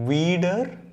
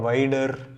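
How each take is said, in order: First: The first vowel is a long 'ee'. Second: The first vowel is an 'ai' diphthong. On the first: The speaker calls it right. "ஐக்கு அப்புறம் இ வந்தால் நம்ம இ சொல்லணும்" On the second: The speaker calls it wrong. "அது மாதிரி படிக்கிற கன்ஃபியூஷனே கிடையாது"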